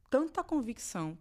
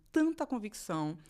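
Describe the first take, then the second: No difference in how they are said.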